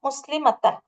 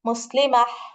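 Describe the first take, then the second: First: The word ends with a full 'tan' syllable. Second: The word ends with a soft 'h' sound. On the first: The reading continues without stopping. "இதுதான் நம்மளுடைய வார்த்தை" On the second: The reading stops on this word. "நீங்க அதை முடிக்கும் போது முஸ்லிமஹ் அந்த மாதிரி"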